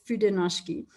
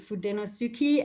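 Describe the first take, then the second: First: The 'u' is dropped, ending 'no-shki'. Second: Every vowel is sounded, ending 'no-su-ke'. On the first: The speaker calls it right. "it's Fudenoshki" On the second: The speaker calls it wrong. "I used to think it was"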